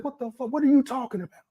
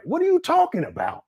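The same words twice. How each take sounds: First: Incredulous, pitch jumping high; retold disbelief. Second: Much higher, incredulous question; can't believe what he's hearing; baffled disbelief. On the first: Reacting to Umar's words, high incredulous disbelief. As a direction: recoil in shock at what he heard. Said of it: "I said". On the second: Real, not acted. To viewers about Umar's claim, high baffled disbelief.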